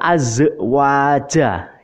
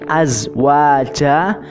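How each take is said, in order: First: The z sound ends with a bouncing echo. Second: The z sound is held without a bounce. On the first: The speaker calls it wrong. "kadang ada yang membaca azwaja, itu salah ya" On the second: The speaker calls it right. "Ini azwaja"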